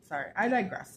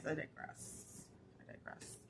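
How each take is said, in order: First: Said in the usual way. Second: Breathy whispered aside; whispering. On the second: Acted. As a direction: drop to a whisper. Repeats digress, then whispers it.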